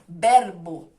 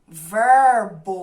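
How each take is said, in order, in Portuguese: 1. Tem sotaque espanhol com r nítido. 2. Tem sotaque rural brasileiro com r arrastado. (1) "em espanhol" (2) "assim, caipira, puxado, arrastado"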